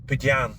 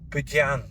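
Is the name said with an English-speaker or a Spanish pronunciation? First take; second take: Spanish; English-speaker. First: It is said quickly with a Spanish pronunciation. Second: It is said with an English-speaker pronunciation. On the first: "That's the way the Spanish pronounce it" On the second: "the names sound different than I would pronounce"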